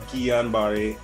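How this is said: The name is said with French sounds. "which is the French pronunciation"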